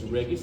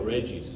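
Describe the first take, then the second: First: The name is said with a Latin pronunciation. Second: The name is said with an English pronunciation. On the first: The speaker calls it right. "but it's Regis because it's Latin" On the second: The speaker calls it wrong. "or in English Via Regis. They would prefer to pronounce it this way"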